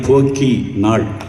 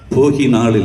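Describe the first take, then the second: First: The middle consonant is long and hard. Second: The middle consonant is short and soft. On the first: The speaker calls it right. "போக்கி நாள் என்றுதான் உச்சரிக்க வேண்டும்" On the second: The speaker calls it wrong. "போகி நாள் இல்லை"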